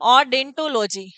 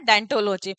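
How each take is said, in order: First: The word begins with an 'o' vowel sound. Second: The word begins directly with a 'd' sound. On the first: The speaker calls it wrong. "वैसे तो आप ओडेंटो नहीं कहेंगे" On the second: The speaker calls it right. "इसमें ओ जो है वो silent होता है"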